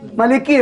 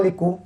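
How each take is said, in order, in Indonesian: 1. Kata ini berakhir dengan vokal i. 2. Kata ini berakhir dengan vokal u. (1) "Orang Malik" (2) "dia baca Maliku"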